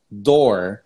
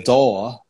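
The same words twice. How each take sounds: First: "door" with the final r sounded; American-style "door", ending on an r; correct pronunciation. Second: "door" with no r, "daw"; British-style "door", the r dropped; alternative pronunciation. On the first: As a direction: pronounce the r at the end of "door". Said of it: "pronunciar as palavras corretamente". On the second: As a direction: leave the r off the end of "door". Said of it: "ou door". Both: Shown as a demonstration.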